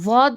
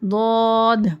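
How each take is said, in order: First: It begins with a w-like sound. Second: It begins with a heavy d-like sound. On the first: The speaker calls it wrong. "वॉद नहीं पढ़ना इसको, वॉ के मखरज से नहीं पढ़ना" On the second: The speaker calls it right. "इसका मखरज बिल्कुल अलग है"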